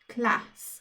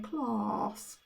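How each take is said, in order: First: The vowel is a short flat a. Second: The vowel is a long open ah. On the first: This is how it is said locally. "the A in this word says A if you're from Birmingham" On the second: This is how people elsewhere say it. "in other places, it's um, people say ah"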